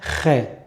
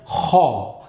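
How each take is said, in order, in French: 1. La voyelle après kh se prononce comme e. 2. La voyelle après kh se prononce comme o. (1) "on va pas dire khe" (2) "on va dire kho"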